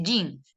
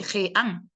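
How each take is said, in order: First: JEAN as "yin", one syllable; falling jean, just "yin"; English pronunciation. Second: JEAN slowly as "je-an", with a jota; wrong-way demo, jean read "je-án"; Spanish spelling reading. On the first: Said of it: "dice jean". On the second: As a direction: say jean with both vowels split. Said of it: "Él no dice jean". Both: Shown as a demonstration.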